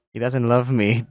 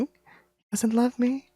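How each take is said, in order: First: Said in the usual way. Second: High, slow and soft, voice cracking; breaking down crying. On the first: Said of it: "I haven't cried since I was twelve". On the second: Acted. Deer realising the bear never loved him, crying softly. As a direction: let it fall apart as the tears come. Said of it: "My body is shaking".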